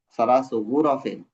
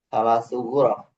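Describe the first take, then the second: First: The last word ends with an added -in sound. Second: The last word stops on a bare consonant.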